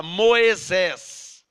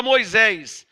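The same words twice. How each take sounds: First: "Moisés" as slow "Mo-e-zés"; archaic pronunciation. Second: Said in the usual way. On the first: Shown as a demonstration. Preacher quoting the old version, "Moisés" drawn out as "Mo-e-zés". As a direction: stretch "Moisés" into three syllables with an E, "Moezés". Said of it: "Essa versão fala". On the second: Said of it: "A nossa Bíblia hoje fala".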